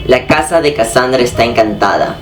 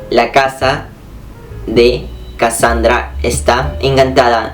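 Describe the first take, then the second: First: The sentence is spoken at normal, fast speed. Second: The sentence is spoken more slowly.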